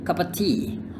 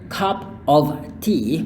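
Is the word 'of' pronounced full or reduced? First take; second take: reduced; full. First: The word 'of' is reduced to 'uh'. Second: The word 'of' is pronounced fully.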